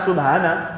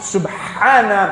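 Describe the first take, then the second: First: The b is said plainly without a bounce. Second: The b gets a short echoing bounce. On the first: The speaker calls it wrong. "pas Subhana" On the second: The speaker calls it right. "Sub. Sub. Qalqala"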